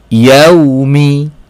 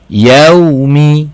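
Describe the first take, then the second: First: The word ends with a short final vowel. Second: The word ends with a short final vowel.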